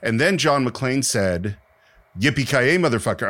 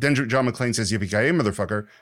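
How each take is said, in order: First: There is a pause before the quote. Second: It runs straight into the quote without pausing.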